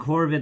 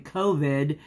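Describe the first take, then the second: First: The first syllable sounds like 'cor'. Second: The first syllable sounds like 'co'. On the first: The speaker calls it wrong. "I was saying Corvid like it was a crow" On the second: The speaker calls it right. "but it's actually COVID nineteen"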